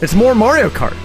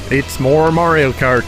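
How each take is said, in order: First: It is said in an excited tone. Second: It is said in a bored, yawning tone.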